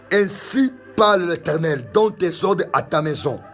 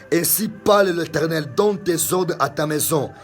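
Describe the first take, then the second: The two takes are said the same way.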